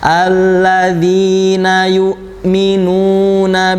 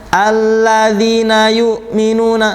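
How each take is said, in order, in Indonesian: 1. Huruf panjangnya dibaca tepat dua ketukan. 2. Huruf panjangnya dibaca terburu-buru dan dipotong pendek. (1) "kalau dua harokatnya cukup dua harokat" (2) "jangan terlalu cepat juga"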